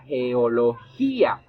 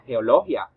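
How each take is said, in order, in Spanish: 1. El acento cae en la i de -gia. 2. El acento no cae en la i. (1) "se pronuncia geología. Así que como la I tiene la mayor fuerza de entonación" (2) "Esta palabra no se pronuncia"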